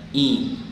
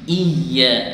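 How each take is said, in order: First: The vowel is a clear i, lips spread. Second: The vowel drifts toward an e sound. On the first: The speaker calls it right. "Bibir agak ditarik ke belakang" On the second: The speaker calls it wrong. "jangan iya, nanti bunyinya lain"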